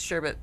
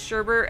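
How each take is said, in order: First: The second syllable has no R sound. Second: The second syllable has an extra R sound. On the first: The speaker calls it right. "there's only one R. It's sherbet" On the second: The speaker calls it wrong. "for the longest time, I thought it was sherbet"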